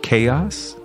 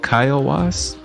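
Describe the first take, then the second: First: It is said with two syllables, like chaos. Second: It is said with three syllables, kai-o-was. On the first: The speaker calls it wrong. "it looks like it wants to be said chaos" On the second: The speaker calls it right. "but it's"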